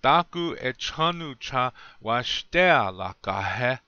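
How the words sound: It is said with the native Lakota melody.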